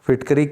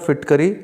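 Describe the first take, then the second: The two takes are said the same way.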